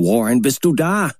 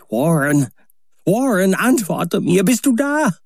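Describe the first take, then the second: First: A milder, restrained call into the receiver. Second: High, urgent calling into the phone; desperate shouting. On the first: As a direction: call down once more, less frantic. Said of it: "Wieder rief ich hinunter". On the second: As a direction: cry out for him again and again. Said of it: "rief und schrie ich". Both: A narrator's reading.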